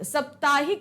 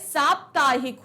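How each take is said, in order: First: The first vowel is short. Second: The first vowel is long. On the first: The speaker calls it wrong. "साप्ताहिक नहीं होता है" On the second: The speaker calls it right. "सा में आ की मात्रा होती है"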